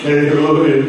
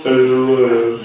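Both takes have the same delivery.

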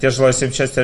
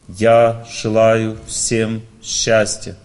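First: The phrase is rushed through quickly. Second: The phrase is said at a calm, unhurried pace. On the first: The words are rattled off without feeling. The speaker calls it wrong. "Некоторые люди торопятся, они повторяют" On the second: The words come sincerely from the heart. The speaker calls it right. "Так не надо сильно медленно"

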